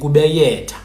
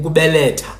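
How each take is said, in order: First: The middle consonant is a Y sound. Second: The middle consonant is an L sound. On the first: "they would say" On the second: "instead of saying"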